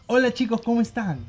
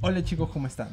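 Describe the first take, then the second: First: It is said in a happy, cheerful tone. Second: It is said in a normal, neutral tone.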